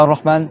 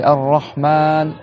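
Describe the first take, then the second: First: Ar-Rahman with short A and single R; wrong, short. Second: Ar-Rahman, slow, doubled R and long final A; correct prolonged A. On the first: Teacher showing students an error, Ar-Rahman cut short. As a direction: say Ar-Rahman quickly, nothing prolonged. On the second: Teacher showing students Ar-Rahman with prolonged A. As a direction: stretch the last A of Ar-Rahman. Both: Shown as a demonstration. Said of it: "Tu dois prolonger le A".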